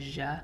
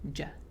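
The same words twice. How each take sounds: First: The consonant is soft and drawn out. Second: The consonant is hard and short. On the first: The speaker calls it wrong. "which sounds a little bit like za" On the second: The speaker calls it right. "it has shidda or hardness, then it would be ja"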